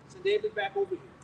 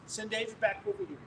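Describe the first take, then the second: First: Calling out high. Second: Said in the usual way. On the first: Retold or imitated. Aunt calling for David.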